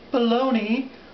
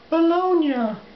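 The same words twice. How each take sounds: First: The word is said in an anglicized way. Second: The word is said in an Italian-style way. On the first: The speaker calls it wrong. "the proper pronunciation is not Bologna" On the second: The speaker calls it right. "but Bologna"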